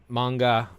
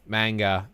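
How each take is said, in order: First: "manga" as MAHN-ga, open ah; Japanese-style "manga" with ah; Japanese pronunciation. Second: "manga" as MANG-ga, flat a; Americanized "manga" with a short a; butchered American pronunciation. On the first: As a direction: say "manga" slowly with the vowel of father. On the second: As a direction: say "manga" with the vowel of cat. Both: Shown as a demonstration. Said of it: "they'll butcher that".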